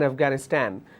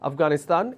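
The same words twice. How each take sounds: First: It is said with an American pronunciation. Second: It is said with a British pronunciation. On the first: "Americans pronounce that as" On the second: "most of the countries, they follow British English. We pronounce the word as"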